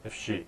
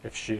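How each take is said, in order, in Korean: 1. 단어들이 이어져 발음되고 'if'는 거의 들리지 않습니다. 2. 단어들이 이어져 발음되고 'if'는 거의 들리지 않습니다.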